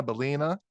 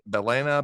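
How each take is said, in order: First: "Balena" with middle syllable as LEE; "Balena" with a long E in the middle, rising as if checking; second pronunciation attempt. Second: "Balena" with middle syllable as LAY; "Balena" with a long A in the middle, tentative; first pronunciation attempt. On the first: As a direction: say "Balena" as buh-LEE-nuh, questioning. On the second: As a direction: say "Balena" as buh-LAY-nuh, unsure. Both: Real, not acted. Tries two pronunciations of company name.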